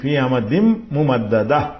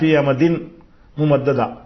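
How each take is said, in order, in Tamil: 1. 'amadin' m-இல் முடியும், அடுத்த சொல்லோடு கலந்துவிடும். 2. 'amadin' n-இல் முடியும், அடுத்த சொல்லோடு கலக்காமல் தனியாக இருக்கும். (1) "கோத்து சொன்னா ஃபி அமதிம் திம் என்று இம்மு போட்டு" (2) "தனித்தனியா சொன்னீங்கன்னா"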